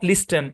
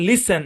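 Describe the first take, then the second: First: The t sound is pronounced. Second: The t sound is silent. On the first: The speaker calls it wrong. "Not" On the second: The speaker calls it right. "টি silent"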